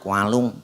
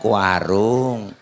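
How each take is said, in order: First: It is said nasally and slurred, hard to understand. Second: It is said clearly with normal articulation. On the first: A person with a nasal speech defect is talking. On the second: The listener understands what was meant.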